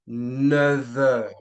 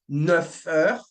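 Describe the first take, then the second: First: Neuf links to the next word with a V sound. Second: Neuf links to the next word with an F sound. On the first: The speaker calls it right. "but you would say ... A V" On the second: The speaker calls it wrong. "you would not say"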